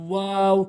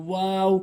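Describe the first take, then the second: Both takes have the same delivery.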